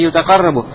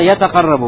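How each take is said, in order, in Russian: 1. Слово начинается со звука 'yu'. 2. Слово начинается со звука 'ya'. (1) "правильно сказать не ютакаррабу" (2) "вот так"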